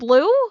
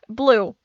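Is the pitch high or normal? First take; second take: high; normal. First: It is said at a higher pitch. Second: It is said at a normal pitch.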